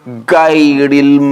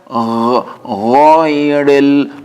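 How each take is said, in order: First: The first sound is a sharp stop like English g. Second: The first sound has continuous, unbroken airflow friction. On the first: The speaker calls it wrong. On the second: The speaker calls it right. "Constant flow of air"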